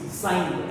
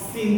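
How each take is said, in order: First: The word has a long vowel, like 'sign'. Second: The word has a short vowel, like 'sin'. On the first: The speaker calls it right. "it's sine, S I N E" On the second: The speaker calls it wrong. "It's not sin theta"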